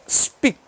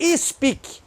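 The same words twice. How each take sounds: First: The word is said without any extra vowel. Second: An extra 'i' vowel is added to the word. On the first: The speaker calls it right. "é speak" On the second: The speaker calls it wrong. "Não tem i também não, não é speak"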